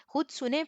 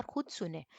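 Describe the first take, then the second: First: खुद सुनें said again higher, with खुद stressed; emphatic repeat. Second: Said in the usual way. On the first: Shown as a demonstration. Teacher drilling students, repeating खुद सुनें with stronger stress. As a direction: lift खुद सुनें higher the second time to drive it home. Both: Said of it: "teacher repeats advice for emphasis".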